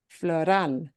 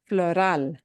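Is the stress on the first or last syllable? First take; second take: last; last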